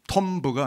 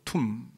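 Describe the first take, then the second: First: A b sound is pronounced at the end. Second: The word ends with no b sound. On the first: The speaker calls it wrong. "톰브가 아니고" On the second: The speaker calls it right. "B는 묵음입니다. 발음은 툼"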